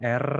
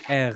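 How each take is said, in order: First: The R is rolled with the tongue tip. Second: The R is made at the back of the throat. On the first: The speaker calls it wrong. "Bukan R seperti Spanyol" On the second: The speaker calls it right. "letaknya ada di bagian tenggorokan ya"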